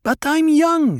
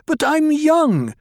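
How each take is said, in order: First: High, loud insistence; repeated angry protest. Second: High, loud, stamping protest; angry protest. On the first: Harah repeating her protest to Stilgar, high and loud. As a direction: say it again, just as high and loud. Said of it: "Hera repeated". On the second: Harah protesting angrily to Paul, high and loud. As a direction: wail it high and loud, slowly. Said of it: "stamped her foot, shook her shoulders with anger". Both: A narrator's reading.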